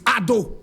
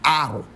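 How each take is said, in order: First: The middle consonant is a clear double d. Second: The middle consonant is an American r-like flap.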